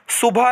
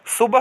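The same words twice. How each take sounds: First: सुबह as "su-baa"; wrong long ending. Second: सुबह as "su-bah"; correct short ending. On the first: Teacher showing students the mistake, ending lengthened. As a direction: end सुबह on an open long a. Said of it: "नहीं". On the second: Teacher giving students the right form, short ending. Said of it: "होता है". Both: Shown as a demonstration.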